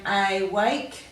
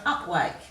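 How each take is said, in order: First: The first vowel is a long 'ay' sound. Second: The first vowel is a short 'uh' sound. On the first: "we would give that a long A sound" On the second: "we give it a bit of a grunt sound"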